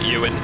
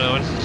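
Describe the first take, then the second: First: The name begins with a 'yoo' sound. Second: The name begins with an 'oh' sound. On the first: The speaker calls it wrong. "I usually say Ewan for some reason" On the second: The speaker calls it right. "I think I said it that right that time"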